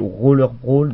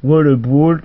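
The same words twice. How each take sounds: First: Said in the usual way. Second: "Waller Brawl" with a W in a mock foreign accent; goofy foreign "Waller Brawl"; caricatural accent. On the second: Shown as a demonstration. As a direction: say "Waller Brawl", not Roller. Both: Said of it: "j'arrive bien à dire Roller Brawl".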